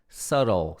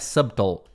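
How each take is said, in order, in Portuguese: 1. Nenhum som de b é ouvido no meio. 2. Um som de b é pronunciado no meio. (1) "Aquele B lá não pronuncia" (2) "não é subtle"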